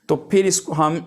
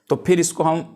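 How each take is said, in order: The two takes are said the same way.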